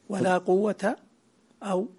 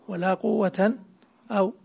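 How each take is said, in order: The two takes are said the same way.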